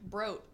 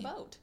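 First: An R sound follows the first consonant. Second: No R sound follows the first consonant. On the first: The speaker calls it wrong. "he adds an R to everything, so he's like" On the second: The speaker calls it right. "It's a boat. He just pronounces them wrong"

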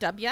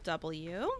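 First: The letter is pronounced in a relaxed way. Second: The letter is pronounced with exaggerated care. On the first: "Is that better?" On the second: "I feel like I over-enunciated the W"

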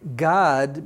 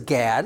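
First: The vowel sounds like the a in father. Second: The vowel sounds like the a in cat. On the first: "remember I say the A is pronounced as Ah" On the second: "that's fine if you want to pronounce it like that"

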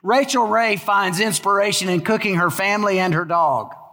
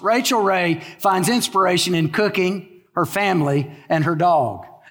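First: It runs on without pauses between the items. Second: It has pauses after cooking and family.

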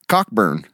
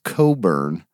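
First: The first syllable is said as 'cock'. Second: The first syllable is said as 'co'. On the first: "But it's C-O-C-K" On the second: "pronounced Coburn"

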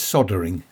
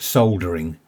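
First: It is said in the American pronunciation. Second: It is said in the speaker's home pronunciation. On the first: "in the US it's soldering" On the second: "We call it soldering"

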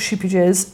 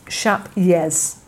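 First: The name sounds like sheepy jazz. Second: The name sounds like shap yez. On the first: The speaker calls it wrong. "it's not sheepy jazz" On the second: The speaker calls it right. "So the J is a Y, and rather than sheep, it's more like shap"

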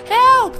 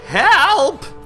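First: It is said in Zagara's small, little voice. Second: It is said in a normal, bigger voice.

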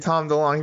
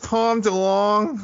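First: The name is said plainly, without elongated vowels. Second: The name has California-style elongated vowels. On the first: "wouldn't say [name]" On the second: "It's a California accent. They elongate"

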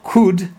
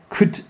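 First: The word is full with a strong vowel. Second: The word is reduced with a weak vowel. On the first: The speaker calls it wrong. "not could" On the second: The speaker calls it right. "Who could, yeah"

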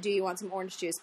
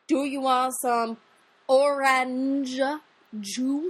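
First: It is said in a normal way. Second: Each word is pronounced with exaggerated care.

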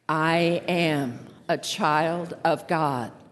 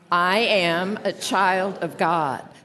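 First: The voice is lower and resonates in the chest. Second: The voice is at its ordinary pitch. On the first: "lower your voice just a little bit so you can feel it right down here in your chest" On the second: "Just say it now"

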